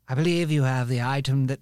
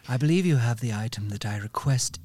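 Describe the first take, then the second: First: It is said in Lady Cantor's voice. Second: It is said in a slow, sultry voice.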